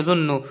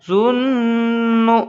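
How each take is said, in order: First: Said in the usual way. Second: जुन्नु with a long, higher hummed न; slow जुन्नु, nasal hum held before the last vowel; ghunna nasal hold. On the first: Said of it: "direct ऐसे नहीं पढ़ेंगे". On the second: Shown as a demonstration. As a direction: keep the न of जुन्नु ringing in the nose. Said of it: "नाक में आवाज़ को रोकेंगे".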